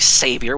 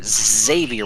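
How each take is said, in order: First: The name begins with an S sound. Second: The name begins with a Z sound. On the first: The speaker calls it wrong. "we don't say Savior" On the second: The speaker calls it right. "Xavier with a Z"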